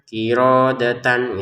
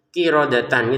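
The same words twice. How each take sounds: First: A vowel in the word is drawn out long. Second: No vowel in the word is lengthened. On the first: The speaker calls it wrong. "Jangan dibaca kirodatan gitu ya, jangan ada yang panjang" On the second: The speaker calls it right. "dibaca tidak panjang ya, dia harus dibaca dengan kirodatan gitu"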